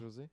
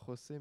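First: The name is said in a Brazilian Portuguese way. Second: The name is said in a non-Brazilian way. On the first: The speaker calls it right. "qui est brésilien, c'est pour ça qu'on ne dit pas José, mais" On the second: The speaker calls it wrong. "on ne dit pas José"

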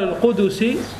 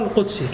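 First: A short u vowel follows the d sound. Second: No vowel follows the d sound. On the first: "بضم الدال" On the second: "وتسكين الدال"

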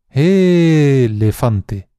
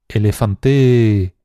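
First: The stress is on the first syllable. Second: The stress is on the fourth syllable. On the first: "alargando mucho cada una de las sílabas" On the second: "alargando mucho cada una de las sílabas"

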